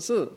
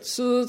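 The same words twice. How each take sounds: First: The pitch falls sharply from high. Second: The pitch stays high and level. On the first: "Four tones of Mandarin" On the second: "Four tones of Mandarin"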